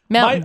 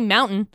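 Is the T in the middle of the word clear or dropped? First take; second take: dropped; clear. First: The middle T is dropped. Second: The middle T is clearly pronounced. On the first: The speaker sounds like a local. "you always drop it" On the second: The speaker sounds like an outsider. "clearly you're not from here if you say mountain"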